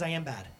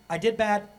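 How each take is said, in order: First: "I am" stressed, softer, falling. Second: "did" punched, the deed is bad; stress on did. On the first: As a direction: press "I am" to make it identity. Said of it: "Shame says". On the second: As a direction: lean on "did" to name the action. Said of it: "Guilt says". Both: Shown as a demonstration.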